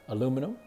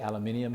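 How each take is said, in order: First: It is said with an American pronunciation. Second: It is said with an Australian pronunciation. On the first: "words that I grew up saying" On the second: "they say aluminium here"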